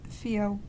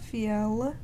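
First: The final L almost disappears. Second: The final L is clearly pronounced. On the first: The speaker calls it right. "Definitely just disappears" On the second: The speaker calls it wrong. "It's not fiel"

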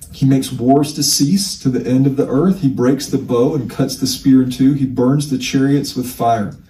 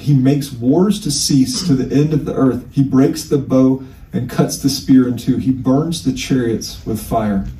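The two takes are said the same way.

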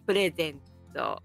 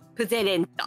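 First: The word is said as purezento. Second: The word is said as puzerento. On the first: The speaker calls it right. "嬉しいプレゼントを" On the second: The speaker calls it wrong. "プゼレントと言ってくれる、2 歳のボーイでした"

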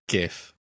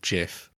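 First: The word begins with a hard G sound. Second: The word begins with a soft J sound. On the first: The speaker calls it right. "it's a hard G" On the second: The speaker calls it wrong. "not JIF"

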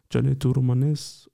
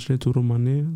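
First: The final s sound is pronounced. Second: The final s sound is dropped.

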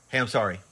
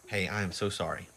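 First: It sounds casual and offhand. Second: It sounds warm and heartfelt.

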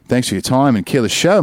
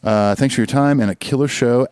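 First: It is read in a put-on Australian accent. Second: It is read in the speaker's ordinary accent. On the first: "I'll just end it in an Australian accent" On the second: "I also should have read that in an Australian accent"

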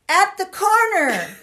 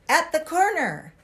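First: It is said loudly. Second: It is said fairly quietly.

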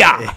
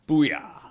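First: It is said loudly and with energy. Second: It is said at a normal, quieter volume.

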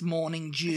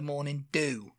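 First: The word 'dew' begins with a J sound. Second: The word 'dew' begins with a plain D sound. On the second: "I have seen the morning do"

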